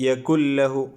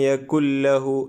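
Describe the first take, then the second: The two takes are said the same way.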